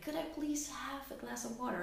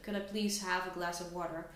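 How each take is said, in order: First: The voice is pitched high and friendly. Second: The voice is pitched low and demanding. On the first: The speaker is being nice and shows no threat. "when we use the higher voice" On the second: The speaker is being dominant and demanding. "Instead of"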